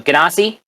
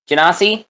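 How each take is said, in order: First: Genasi with a hard G, as guh-NAH-see; questioning guh-NAH-see for Genasi. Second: Genasi with a soft G, as juh-NAH-see; questioning juh-NAH-see for Genasi. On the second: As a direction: say Genasi starting with a j sound. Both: Shown as a demonstration. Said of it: "I don't know how you pronounce it".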